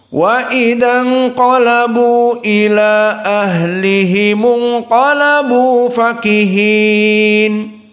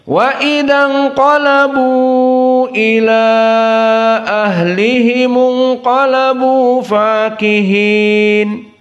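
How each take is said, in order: First: The vowel before 'ila' is held for two beats. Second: The vowel before 'ila' is held for four beats. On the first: This is the shortened reading. "hanya dua harokat" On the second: This is the medium-length reading. "inqalabu arba harokat"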